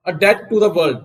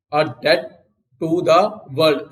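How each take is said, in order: First: Said in the usual way. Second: Slow repeat. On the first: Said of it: "teacher models the phrase". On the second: Shown as a demonstration. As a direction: split "a debt" from "to the world" with a pause, slowly. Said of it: "teacher repeats the phrase slowly". (धीरे-धीरे, रुक-रुक कर बोलिए)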